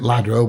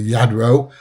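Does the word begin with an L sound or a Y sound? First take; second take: L sound; Y sound. First: The word begins with an L sound. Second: The word begins with a Y sound. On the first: The speaker calls it wrong. "everybody calls it" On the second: The speaker calls it right. "it's actually"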